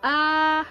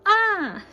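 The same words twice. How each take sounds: First: The pitch stays high and level. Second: The pitch falls sharply from high to low. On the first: "it's a full tone" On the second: "and this is down"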